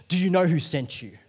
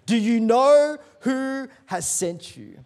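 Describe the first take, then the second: First: Said in the usual way. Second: "Do you know who" drawn out high and loud; slow, loud preacher's challenge, falling on "sent you"; slow emphatic question. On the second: Real, not acted. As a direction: stretch "know" and "who" as a raised, ringing challenge. Repeats question slowly for force.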